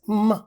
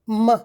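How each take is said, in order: No difference in how they are said.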